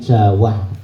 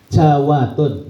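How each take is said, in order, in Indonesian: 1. Kata itu diakhiri tanpa suku kata 'tun'. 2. Kata itu diakhiri dengan suku kata 'tun' tambahan.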